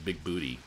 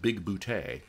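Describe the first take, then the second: First: The name ends with a 'tee' sound. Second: The name ends with a 'tay' sound. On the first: The speaker calls it wrong. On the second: The speaker calls it right.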